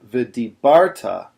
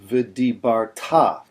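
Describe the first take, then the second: First: The stress falls before the last syllable. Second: The stress falls on the last syllable. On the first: The speaker calls it wrong. "put the emphasis on" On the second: The speaker calls it right. "the word is actually pronounced"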